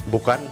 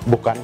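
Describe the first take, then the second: No difference in how they are said.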